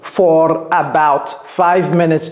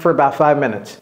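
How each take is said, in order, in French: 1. Chaque mot est prononcé en entier et séparément. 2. For est réduit et relié à about.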